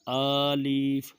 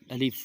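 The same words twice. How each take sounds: First: "الف" very slow and loud, both vowels stretched; wrong alif pronunciation. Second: "الف" short, with no stretched vowel; correct alif pronunciation. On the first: Teacher shows children's mistake, overstretched loud "الف". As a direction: misread "الف" as a long "aaleef". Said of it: "یہ سارے حروف غلط ہیں". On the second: Teacher gives the correct letter, short clean "الف". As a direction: say "الف" briefly, ending cleanly on f. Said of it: "صحیح حرف ہے". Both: Shown as a demonstration.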